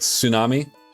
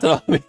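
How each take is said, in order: First: The word begins with a 'ts' sound. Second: The word begins without a 'ts' sound. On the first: The speaker calls it right. "it's like tsunami" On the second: The speaker calls it wrong. "it's not Tanami"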